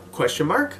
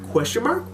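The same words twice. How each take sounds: First: Said in the usual way. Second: "Question mark?" asked with a big upward lilt, much higher; "Question mark?" sung up high like a tease; rising question tune. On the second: Shown as a demonstration. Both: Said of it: "I put a question mark there".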